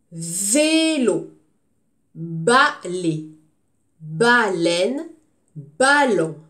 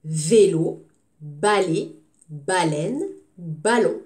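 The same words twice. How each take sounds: First: Vélo, balai, baleine, ballon read out loud; words read out clearly. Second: Vélo, balai, baleine, ballon again, first syllable pressed; repeated word list. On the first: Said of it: "je dis les mots". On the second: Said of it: "ne commence pas comme avec la même syllabe". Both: Shown as a demonstration.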